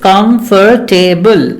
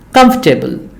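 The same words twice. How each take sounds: First: The word is said with four syllables. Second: The word is said with three syllables. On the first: The speaker calls it wrong. "people often think that it has four syllables" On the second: The speaker calls it right. "it has three syllables only"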